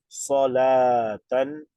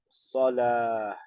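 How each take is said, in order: First: The word ends with a full -tan ending. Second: The word ends softly without the -tan ending. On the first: The word runs on in the sentence. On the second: The reciter stops at this word.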